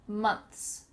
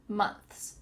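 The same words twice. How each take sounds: The two takes are said the same way.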